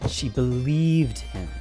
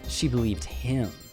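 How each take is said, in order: First: The word believed carries the stress. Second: The word him carries the stress. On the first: "Let me stress each word" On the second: "Let me stress each word"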